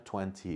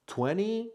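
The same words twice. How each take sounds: First: "twenty" with a clear t, "twen-tee"; British "twenty" with the t fully sounded. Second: "twenty" said "twenny", the t after n dropped, pitched high; American "twenty" with a flapless dropped t, "twenny". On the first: A teacher contrasts the British "twenty" with a clear t. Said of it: "twenty is British". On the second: A teacher models the American "twenty" as "twenny". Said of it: "Twenty or twenty is American". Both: Shown as a demonstration.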